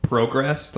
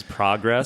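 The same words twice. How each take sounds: First: "Progress" with a long O, as in "pro"; Canadian "Progress", first vowel like "go". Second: "progress" with an open first vowel, as in "prog"; American "progress", rhyming its start with "frog"; short-o progress. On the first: Retold or imitated. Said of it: "my mom says progress". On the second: Shown as a demonstration. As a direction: say "progress" as PRAH-gress. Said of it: "It's prog".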